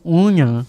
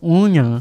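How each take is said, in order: First: The word is said in a heavily nasal voice. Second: The same.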